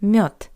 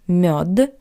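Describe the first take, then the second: First: The final consonant is a voiceless T. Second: The final consonant is a voiced D. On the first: The speaker calls it right. "sounds like the paired voiceless consonant T" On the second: The speaker calls it wrong. "Not мед"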